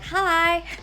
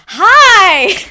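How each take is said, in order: First: The greeting sounds timid and held back. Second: The greeting sounds confident and open.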